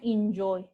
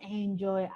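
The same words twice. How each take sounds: First: The first vowel sounds like 'i'. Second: The first vowel sounds like 'e'. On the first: The speaker calls it right. "Bunyinya I, I, bukan E" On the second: The speaker calls it wrong. "Kalau orang Indonesia kan sering kayak enjoy aja"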